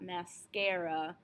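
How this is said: It is said with English vowel sounds. The speaker calls it wrong. "not mascara"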